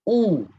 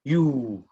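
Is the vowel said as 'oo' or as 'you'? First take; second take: oo; you. First: It is a plain 'oo' vowel sound. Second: It is said like the word 'you'. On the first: The speaker calls it right. "Sebenarnya bunyi U ialah apa? U. Unta" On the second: The speaker calls it wrong. "ramai orang fikir bunyi dia ialah U. Maknanya salah kan?"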